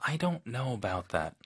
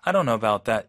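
First: It sounds soft and polite. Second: It sounds blunt and harsh.

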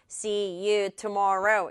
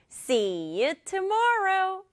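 First: It is said flatly, like a computer. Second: It is said with lively, stressed rhythm.

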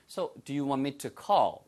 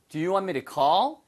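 First: It is said slowly and very clearly. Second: It is said at normal conversational speed.

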